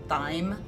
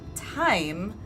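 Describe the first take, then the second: First: The word begins with a 'th' sound. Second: The word begins with a plain 't' sound. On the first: The speaker calls it wrong. "I always thought it was pronounced thyme" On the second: The speaker calls it right. "it was actually pronounced time"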